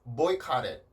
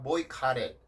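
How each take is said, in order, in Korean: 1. 가운데 t는 부드러운 플랩이에요. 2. 가운데 t는 부드러운 플랩이에요.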